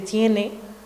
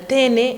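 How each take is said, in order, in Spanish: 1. La primera vocal es un diptongo. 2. La primera vocal es una vocal simple. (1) "en vez de" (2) "ejemplos de monoptongación"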